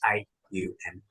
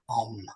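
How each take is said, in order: First: It is said as three separate drawn-out sounds. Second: It is said as one blended syllable. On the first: The speaker calls it right. "A from the chest, U from the throat, M with an intensity" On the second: The speaker calls it wrong. "You don't say it like that"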